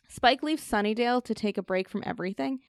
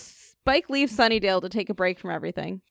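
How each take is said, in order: First: The voice rises at the end like a question. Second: The voice falls at the end like a statement. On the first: It sounds like a question. The speaker calls it wrong. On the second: It sounds like a statement. The speaker calls it right.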